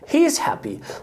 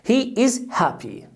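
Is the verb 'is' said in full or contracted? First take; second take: contracted; full. First: The word is is joined onto he. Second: The word is is said as a separate word.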